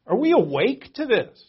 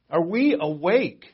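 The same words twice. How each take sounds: First: Said in the usual way. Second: "Are we awake" drawn out slowly, leaning on "we"; slow it down and press each word home; slow, pointed repeat. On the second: Shown as a demonstration.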